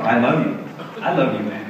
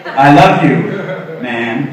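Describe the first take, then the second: First: Quiet, tender I love you; softly said love you. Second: Much louder, hearty I love you; macho bro version. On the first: Man tells a male friend he loves him, softly and tenderly. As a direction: say it gently to a friend. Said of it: "That's not normal guy talk". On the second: Guy tells another guy he loves him, loud and hearty bro style. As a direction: belt it out like a bro. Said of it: "they usually have to put a man after it". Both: Retold or imitated.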